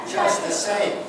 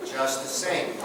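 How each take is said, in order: First: "Just the same" sung out high, with "Just" on top and falling away; high falling take. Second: Said in the usual way. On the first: Shown as a demonstration. Repeating the phrase for the class, pitched high and falling. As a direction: lift "Just" high and let the line fall.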